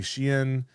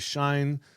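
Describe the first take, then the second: First: It is said as two syllables, 'she-in'. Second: It is said as one syllable, rhyming with 'line'. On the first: "some people say Shein" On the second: "Some people say Shine"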